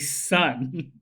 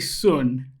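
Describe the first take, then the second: First: The surname is said the way people in LA say it. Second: The surname is said the way people in Taiwan say it. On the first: This is how people in LA say the name. "in L A, people say Sun" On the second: This is how people in Taiwan say the name. "Whenever they're in Taiwan, people say Sun"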